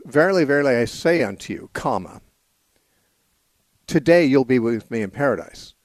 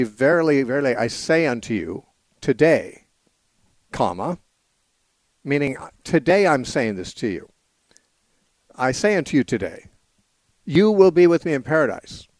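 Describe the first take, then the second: First: Verily verily I say unto you, then a clear pause, then today you'll be with me in paradise; pause before today. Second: I say unto you today, then a clear pause, then you will be with me in paradise; pause after today. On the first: Radio host reading the verse as printed, pausing before today. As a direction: read it with the break falling just before today. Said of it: "it says". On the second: Radio host showing the moved comma, pausing after today. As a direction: read it with the break falling just after today. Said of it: "And they want it to be".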